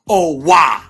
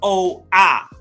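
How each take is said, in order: First: A w sound links the two vowels. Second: The two vowels meet without a w sound. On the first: The speaker calls it wrong. "ain't no wah sound in it. Ain't no oh wah" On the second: The speaker calls it right. "It's O ah"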